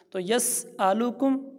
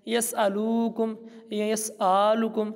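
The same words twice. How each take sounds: First: Slow, careful یس آلو کم, each syllable clear; correct recitation. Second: Careless recitation, کم barely drawn out; wrong way to recite. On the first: Teacher showing students the right recitation, slow. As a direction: recite یس آلو کم slowly and properly. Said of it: "بہترین انداز میں پڑھنا سیکھیں". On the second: Teacher showing students how not to recite. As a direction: run یس آلو کم together the wrong way. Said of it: "ایسے نہ کیجیے گا". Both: Shown as a demonstration.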